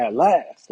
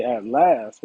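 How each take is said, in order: First: At last said louder, rising at the end; excited reading of At last; loud with excitement. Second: Said in the usual way. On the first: Shown as a demonstration. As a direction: show the exclamation mark in your voice. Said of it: "you supposed to say it loudly with excitement". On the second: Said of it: "say it loudly with excitement".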